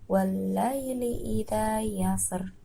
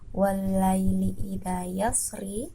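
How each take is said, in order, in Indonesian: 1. Kata terakhir berakhir dengan konsonan mati. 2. Kata terakhir berakhir dengan vokal i pendek. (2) "Kalimat yang tertulis"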